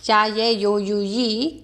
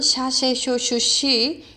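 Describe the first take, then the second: First: The syllables begin with a y sound. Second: The syllables begin with an sh sound. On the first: "스페인에서는" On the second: "아르헨티나 칠레 쪽은"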